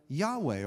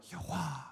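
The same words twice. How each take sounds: First: Said in the usual way. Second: Second Yahweh breathed out airily. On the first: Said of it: "the best guess is". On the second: Shown as a demonstration. Preacher offering the alternative, Yahweh said as a breath. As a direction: breathe Yahweh instead of speaking it. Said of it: "pronounced like a breath".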